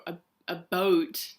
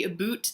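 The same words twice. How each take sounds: First: "a boat" for about, vowel rounded to OH; Canadian "about". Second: "aboot", rhyming with boot. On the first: Vlogger showing how some Canadians say about, as "a boat". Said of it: "the way that some people say". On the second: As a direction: say "aboot" with an OO vowel. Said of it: "people think people from Canada say". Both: Shown as a demonstration.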